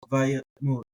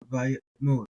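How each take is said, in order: No difference in how they are said.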